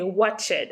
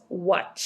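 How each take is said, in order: First: The ending is said as an extra syllable. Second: The ending is only a short t sound. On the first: The speaker calls it wrong. "I'm not going to say watched" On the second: The speaker calls it right. "No, it's watch"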